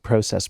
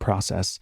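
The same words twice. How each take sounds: First: The first syllable sounds like 'pro' in proactive. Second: The first syllable does not sound like 'pro'. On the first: "I like to pronounce it process ... because it's proactive" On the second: "more than process"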